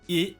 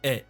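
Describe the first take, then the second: First: The vowel is a closed 'ay'-like sound. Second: The vowel is an open 'eh' sound. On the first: The accent mark leans the first way. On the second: The accent mark leans the other way.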